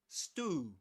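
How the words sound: It is said in an American accent. "American English"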